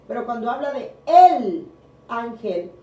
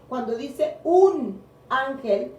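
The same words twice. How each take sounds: First: El said much louder before a pause, then ángel; stress on el. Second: Un drawn out, slower, a bit raised; slow down and lean on un; stress on un. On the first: Preacher contrasting el ángel with un ángel, stressed. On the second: Preacher contrasting un ángel with el ángel, stressed. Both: Shown as a demonstration.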